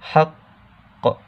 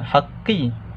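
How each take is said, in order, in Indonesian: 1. Kata ini berakhir pada konsonan yang terhenti dan memantul. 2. Kata ini berakhir dengan vokal i pendek. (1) "dia ada cengkaman dulu sebelum berhenti tu" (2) "kita tak baca secara uh, haqqi"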